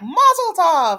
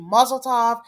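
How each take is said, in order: First: Mock cheer. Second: Said in the usual way. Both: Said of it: "his mom screaming".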